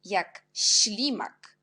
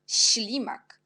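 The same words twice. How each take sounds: First: Teacher sounding out ślimak slowly, full voice; slow spoken demo. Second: Teacher whispering ślimak to show the hiss; whispered demo. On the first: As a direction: spell out jak ślimak at half pace. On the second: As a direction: breathe ślimak with no voice. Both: Shown as a demonstration. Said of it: "C'est aussi serré, chi".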